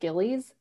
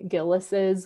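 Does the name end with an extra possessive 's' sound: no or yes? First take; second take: no; yes. First: The name ends without an added possessive sound. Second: The name ends with an added possessive sound. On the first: The speaker calls it wrong. "a lot of people pronounce it Gillies, but that's not correct" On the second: The speaker calls it right. "It's actually Gillis's with the, like the apostrophe at the end"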